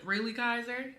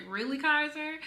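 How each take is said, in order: First: Quoted question, close to the usual voice; amused disbelief. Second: Higher, mock-incredulous question; amused disbelief. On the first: Retold or imitated. Retelling a partner's reaction to the child's scratch, mildly amused disbelief. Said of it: "King was laughing as well". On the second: Retelling own reaction to a five-year-old's drama, amused disbelief in a higher voice. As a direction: quote it pitched up, teasing the child. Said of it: "And I was laughing".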